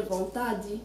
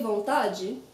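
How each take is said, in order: First: Vontade ending in a hard dee; regional variant. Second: Vontade ending in a jee sound; soft-G ending. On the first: Teacher shows other Brazilian accents, vontade with plain dee ending. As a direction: say vontade as von-TAH-dee. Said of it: "not every Brazilian will say the same way". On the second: Teacher shows her own Brazilian accent, vontade with de as jee. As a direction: say vontade as von-TAH-jee. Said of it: "I say vontade". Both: Shown as a demonstration.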